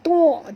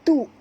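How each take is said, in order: First: The syllable is heavy, with a throaty ain. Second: The syllable is light, with a glottal stop. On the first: The speaker calls it wrong. "jangan baca tu" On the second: The speaker calls it right. "tu ringan ya"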